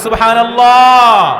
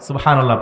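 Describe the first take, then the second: First: It is said louder. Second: It is said at normal volume.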